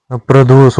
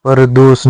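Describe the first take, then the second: First: प्रदोष said as "pra-dosh", with the pr cluster; the correct form प्रदोष, "pra-dosh"; correct pronunciation. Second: परदोष said as "par-dosh", with an open first syllable; the incorrect form परदोष, "par-dosh"; wrong pronunciation. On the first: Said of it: "प्रदोष होता है". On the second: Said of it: "परदोष नहीं होता". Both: Shown as a demonstration.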